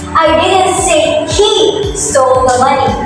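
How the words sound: The stress falls on the word he. Someone else stole the money. "So this emphasizes on the word he"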